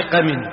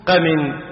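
First: قمن said qamin, i on the mim; قمن as qamin, kasra on mim. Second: قمن said qaman, open a on the mim; قمن as qaman, fatha on mim. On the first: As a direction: say قمن with a clear i after the m: qamin. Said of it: "بكسر الميم". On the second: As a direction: say قمن with a clear a after the m: qaman. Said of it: "في قمن بفتح الميم". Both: Shown as a demonstration.

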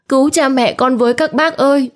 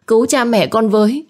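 First: Put-on girl screaming to the onlookers; rising desperate scream. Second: High pleading scream; child screaming for help; desperate cry for help. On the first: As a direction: beg the neighbours at the top of her voice. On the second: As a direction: beg the neighbours to save them. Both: A narrator's reading. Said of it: "Nó hét to".

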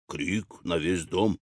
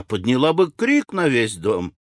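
First: Slow, low, soft echo; задумчивый повтор. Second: Animated widow, pitch swelling on крик; возглас вдовы. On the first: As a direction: repeat it quietly, slowing down. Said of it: "повторил Кит". (медленный тихий повтор низким голосом) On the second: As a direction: exclaim it with a rising swell. Widow exclaims, Kid repeats it softly. (оживлённый возглас вдовы) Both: A narrator's reading.

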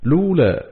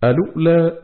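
First: لولا said as "lu'lā", no opening hamza and a hamza on the waw; Qalun second reading. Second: الأولى said as "alu'lā", hamza kept, damma on the lam and a silent hamza on the waw; Qalun reading demo. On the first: Reciter demonstrating Qalun's second way of starting, لولا as "lu'lā". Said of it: "بضم اللام وحذف همزة الوصل وهمز الواو". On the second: Reciter demonstrating Qalun's first way of starting, الأولى as "alu'lā". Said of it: "بإثبات همزة الوصل وضم اللام وهمزة ساكنة على الواو". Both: Shown as a demonstration.

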